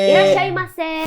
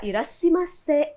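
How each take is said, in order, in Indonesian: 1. Suku kata tengahnya diucapkan 'shai'. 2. Suku kata tengahnya diucapkan 'shi'. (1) "irashaimase yang benar gitu" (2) "itu salah"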